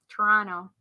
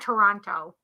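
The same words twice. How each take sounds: First: The second T is dropped. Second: The second T is clearly pronounced. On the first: The speaker calls it right. "Where you say no T at the end" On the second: The speaker calls it wrong. "it's not Toronto"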